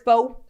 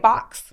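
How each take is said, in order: First: The word ends in a plain vowel sound. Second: The word ends with a clear x sound. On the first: The speaker calls it right. "if the word is faux" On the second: The speaker calls it wrong. "you keep saying fox"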